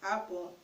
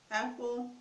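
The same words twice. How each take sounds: First: "apple" with an open "ah" first; Igbo-style apple. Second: Said in the usual way. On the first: Shown as a demonstration. Teacher repeats the contrast for viewers, "apple" with an "ah". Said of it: "It's pronounced". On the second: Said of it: "There's not really much of a difference".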